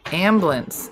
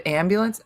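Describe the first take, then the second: First: "Ambulance" squeezed to two syllables, AM-blance; shortened pronunciation. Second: Said in the usual way. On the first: Shown as a demonstration. Quiz taker compares ways to say a word, shortened pronunciation. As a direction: drop the "byu" from "Ambulance". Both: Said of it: "Ambulance instead of ambulance".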